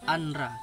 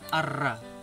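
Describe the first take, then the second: First: The n sound is heard before the r. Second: The n sound merges into a doubled r. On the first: "Seharusnya kan dibaca anra" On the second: "karena masuk hukum idgham bila gunah jadi arra"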